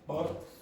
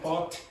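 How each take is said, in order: First: The final consonant is weak and barely heard. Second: The final consonant is clearly pronounced. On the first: The speaker calls it wrong. "the pronunciation of the last consonant is very weak" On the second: The speaker calls it right. "you want to be clearer at the end"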